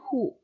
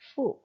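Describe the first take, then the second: First: It begins with an h sound. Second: It begins with an f-like sound. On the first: The speaker calls it wrong. "bunyinya bukan hu" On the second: The speaker calls it right. "tapi fu"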